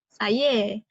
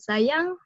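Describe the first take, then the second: First: The word ends with an 'e' vowel. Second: The word ends with an 'ng' sound. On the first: This is the Kelantan dialect form. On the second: This is the standard Malay form.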